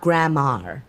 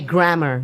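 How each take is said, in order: First: It is said so it sounds like 'grandma'. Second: It is said with clear English 'grammar' sounds. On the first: The speaker calls it wrong. "not grammar" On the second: The speaker calls it right. "you have to say grammar"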